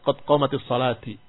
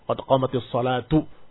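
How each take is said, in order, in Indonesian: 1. Kata terakhir diakhiri dengan vokal i. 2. Kata terakhir diakhiri dengan vokal u. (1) "Fahada khata. As-salah bukan dikasrahkan" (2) "Dirafakan karena dia pelaku dari qomat"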